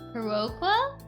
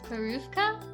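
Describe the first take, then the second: First: The word begins with an h sound. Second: The word begins with a p sound. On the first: The speaker calls it wrong. "I probably pronounced that wrong" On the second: The speaker calls it right. "I'm guessing the accent O does that?"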